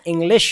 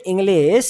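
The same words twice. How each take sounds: First: English ending in a clear sh; correct SH ending. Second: English drawn out as "inglees"; wrong S ending. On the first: Teacher correcting the mistake, clear SH. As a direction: say English with a hushed final "sh". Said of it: "it's a English". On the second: Teacher showing the learner's mistake, S for SH. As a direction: end English on a hissing s, not sh. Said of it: "not a English". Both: Shown as a demonstration.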